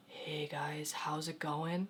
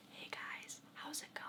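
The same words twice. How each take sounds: First: Low hushed voice, still half talking; failed whisper. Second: Very soft, voiceless whisper; true whisper. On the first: Retold or imitated. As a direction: imitate someone who can't quite whisper. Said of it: "Tyler's version of A S M R would be like". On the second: Shown as a demonstration. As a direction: whisper it with no voice at all. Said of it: "you know, you whisper".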